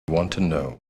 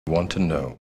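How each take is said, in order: No difference in how they are said.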